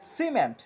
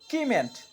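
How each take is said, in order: First: The word begins with an s sound. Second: The word begins with a k sound. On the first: The speaker calls it right. "সি এর উচ্চারণ ছয়ের মতো হচ্ছে" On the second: The speaker calls it wrong. "কোনোভাবেই বলছি না কিমেন্ট"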